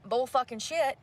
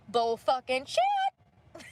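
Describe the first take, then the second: First: Said in the usual way. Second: "Bull fucking shit" dragged out very slowly, each word hit; slow emphatic repeat. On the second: Real, not acted. Repeats her angry verdict.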